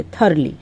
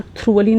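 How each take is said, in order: First: Thoroughly said as "THUR-lee"; correct pronunciation. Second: Thoroughly wrongly said as "TROO-vuh-lee"; mispronunciation demo. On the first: Teacher corrects the common slip, thoroughly as "THUR-lee". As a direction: say thoroughly in two beats, vowel before the r. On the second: Teacher warns students against thoroughly mispronounced as "TROO-vuh-lee". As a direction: say thoroughly like "through-a-lee", r straight after t. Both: Shown as a demonstration. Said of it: "ना thoroughly नहीं बोलेंगे".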